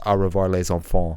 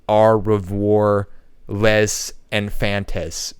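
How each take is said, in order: First: It is said with French sounds. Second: It is read with English spelling sounds. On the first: The speaker calls it right. "but in French it's" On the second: The speaker calls it wrong. "in English it looks like"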